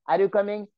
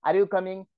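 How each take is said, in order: No difference in how they are said.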